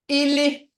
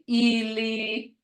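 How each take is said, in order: First: The word is said with a short sound. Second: The word is said with a long sound. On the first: It means leg. "Short sound. Ili is a leg" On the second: It means dead. "when you're saying you're dead, you say ili"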